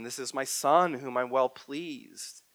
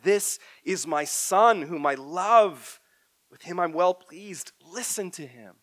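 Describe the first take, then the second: First: Slow, solemn quote of God; measured, reverent divine words; God's voice at the baptism. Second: Slow, loud, solemn divine proclamation; voice from the cloud. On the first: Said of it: "what God speaks over Jesus at his baptism". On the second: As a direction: announce it slowly like God from the cloud. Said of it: "a voice from the cloud said". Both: Acted.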